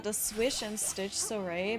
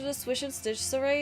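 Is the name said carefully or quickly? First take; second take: carefully; quickly. First: The name is said slowly and carefully. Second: The name is said quickly within a sentence. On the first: "if I think about the name" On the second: "say it quickly in a sentence"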